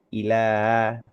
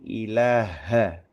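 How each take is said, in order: First: The word ends on the h consonant. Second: The word ends with an a vowel. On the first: The speaker calls it wrong. "bukan hanya sekedar ilah" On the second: The speaker calls it right. "tapi ilaha"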